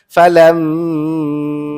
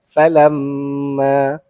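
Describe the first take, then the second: First: The nasal m is held too long. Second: The nasal m is held moderately. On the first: The speaker calls it wrong. "ataupun panjang sangat" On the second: The speaker calls it right. "mesti dengung"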